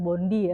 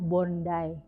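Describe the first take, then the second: First: Bondi is said the way an outsider reads it. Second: Bondi is said the local Australian way. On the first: The speaker calls it wrong. "bukan Bondi ya" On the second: The speaker calls it right. "dibacanya Bondi"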